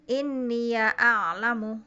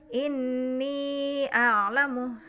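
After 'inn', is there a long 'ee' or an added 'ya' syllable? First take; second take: added ya; long ee. First: The ya carries a short a vowel. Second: The ya is a long ee vowel. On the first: This follows the riwayat Qalun reading. "difatahkan ya-nya menjadi inni ya a'lamu" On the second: This follows the Hafs reading. "Kalau hafaz kan dibacanya inni a'lamu"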